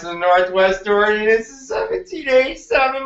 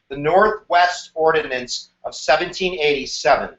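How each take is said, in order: First: It is said in a funny, put-on character voice. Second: It is said in a plain, ordinary voice. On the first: The speaker calls it right. "So I want you to say it like this" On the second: The speaker calls it wrong. "if you say it like that, you're not going to remember it"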